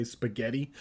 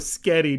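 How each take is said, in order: First: Said in the usual way. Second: Put-on spaghetti said loud as skety, child-style; mispronounced spaghetti. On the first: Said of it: "I know how to say spaghetti". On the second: Shown as a demonstration. Narrator joking he can't say spaghetti, as skety. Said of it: "Just kidding, I'm a grown-ass man. I know how to say spaghetti".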